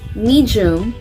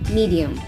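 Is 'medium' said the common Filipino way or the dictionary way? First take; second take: Filipino way; dictionary way. First: It is said the common Filipino way. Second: It is said the dictionary way. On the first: The speaker calls it wrong. "Hindi yan medium" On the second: The speaker calls it right. "kundi medium"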